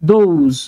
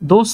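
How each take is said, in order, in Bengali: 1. শব্দটি গুঞ্জনের z শব্দে শেষ হয়। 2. শব্দটি হিসহিসে sh শব্দে শেষ হয়।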